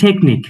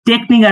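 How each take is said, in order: First: The first t is crisp with a puff of air. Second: The first t is flat and unaspirated. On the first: The speaker calls it right. "আসবে টেকনিক" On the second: The speaker calls it wrong. "টেকনিক আসবে না"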